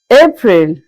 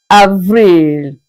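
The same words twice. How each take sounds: First: Said in the usual way. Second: Avril said ah-vreel; French pronunciation. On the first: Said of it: "April is pronounced as Avril". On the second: Shown as a demonstration. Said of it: "pronounced as Avril".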